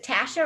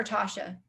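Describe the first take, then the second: First: "Tasha" with the short a of "cat"; first vowel of "Tasha" as in "ash"; TASH-uh pronunciation. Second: "Tasha" with an open ah, as in "father"; first vowel of "Tasha" opened to a long ah; TAH-shuh pronunciation. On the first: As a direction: say "Tasha" as TASH-uh, rhyming with "pasha" said with a flat "ash". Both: Shown as a demonstration. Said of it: "is it Tasha or Tasha".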